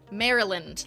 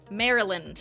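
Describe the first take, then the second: First: It sounds like the name Marilyn. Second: The same.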